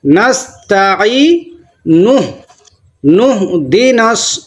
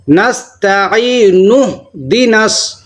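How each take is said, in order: First: نستعین with u, joined into نہدناس; slow correct join. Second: نستعین اہدناس run together without the nu; slow wrong join. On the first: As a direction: say نستعین then glide into نہدناس. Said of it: "صحیح کیا ہے؟". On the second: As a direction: show the mistake نستعین اہدناس. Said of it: "غلط پڑھتے ہیں بہت سارے حضرات". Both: Shown as a demonstration.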